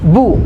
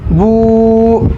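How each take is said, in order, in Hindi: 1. स्वर छोटा और तेज़ है। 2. स्वर खींचकर लंबा किया गया है। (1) "यहाँ पहले बू को नहीं खींचना है" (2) "इस बू को खींचना है"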